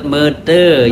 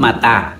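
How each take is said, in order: First: The vowels are e then e. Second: The vowels are a then a. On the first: This is the E E dialect form. "E E menyebut mete" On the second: This is the A A dialect form. "A A menyebut mata"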